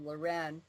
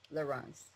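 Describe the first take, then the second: First: The name ends with a long ay-n sound. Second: The name ends with a short -ence sound. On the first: "Mine is the French pronunciation" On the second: "his is the Dutch pronunciation"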